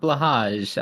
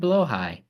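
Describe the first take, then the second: First: The name is said the common English way. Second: The name is said the original Swedish way. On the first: The speaker calls it wrong. "not blahage, as everyone calls it" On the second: The speaker calls it right. "It's actually blowhigh"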